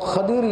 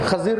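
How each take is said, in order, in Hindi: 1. बीच का व्यंजन d की आवाज़ है। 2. बीच का व्यंजन z की आवाज़ है। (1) "अरबी में दुआत को दुआत पढ़ते" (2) "उर्दू में जो तलफ़ुज़ है"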